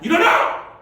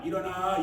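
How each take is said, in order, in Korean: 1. 이 단어는 크고 힘차게 소리쳐 말해요. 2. 이 단어는 차분하고 평범한 목소리로 말해요. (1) "일어나! 이런 뜻인 거예요" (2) "그냥 일어나 이 정도가 아니에요"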